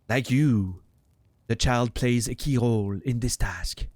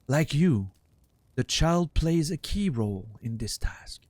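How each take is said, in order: First: It is read in a French accent. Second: It is read without a French accent.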